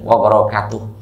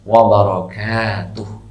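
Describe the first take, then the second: First: The vowel after 'k' is short. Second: The vowel after 'k' is drawn out long. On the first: The speaker calls it wrong. "sering wabarakatuh khata" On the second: The speaker calls it right. "Yang benar wabarakatuh, kanya di ayun"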